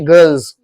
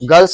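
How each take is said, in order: First: The word ends with a buzzing z sound. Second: The word ends with a hissing s sound. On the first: The speaker calls it right. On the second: The speaker calls it wrong.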